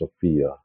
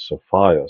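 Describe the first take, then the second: First: It is said without rhyming with Gaia. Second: It is said so it rhymes with Gaia.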